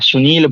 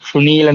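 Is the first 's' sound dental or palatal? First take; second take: dental; palatal. First: The first sound is a dental 's'. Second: The first sound is a palatal 'sh'. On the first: The speaker calls it right. "दंती सा। सुनील बोलेंगे" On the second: The speaker calls it wrong. "नहीं बोलेंगे"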